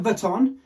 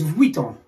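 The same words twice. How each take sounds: First: "Vuitton" as vuh-ton; wrong Vuitton. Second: "Vuitton" as vwee-ton; French pronunciation of Vuitton. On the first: Correcting the common error, Vuitton as vuh-ton. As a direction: flatten the start of "Vuitton" to vuh. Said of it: "It's not Vuitton". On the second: Teaching how a French person says it, Vuitton as vwee-ton. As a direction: glide through vwee in "Vuitton". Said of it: "how a French person would say it". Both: Shown as a demonstration.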